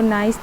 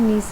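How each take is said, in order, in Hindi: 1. स्वर 'eye' जैसा है, 'rice' से तुक मिलता है। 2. स्वर 'ee' जैसा है, 'piece' से तुक मिलता है। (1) "नाइस नहीं" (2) "नीस ही कहेंगे क्योंकि ये फ्रांस में इसको इस तरह ही सिटी को प्रोनाउंस किया जाता है"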